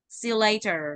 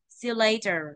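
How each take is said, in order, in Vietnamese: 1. Âm tiết được nhấn đi xuống nhẹ rồi thả lỏng. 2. Âm tiết được nhấn đi xuống nhẹ rồi thả lỏng.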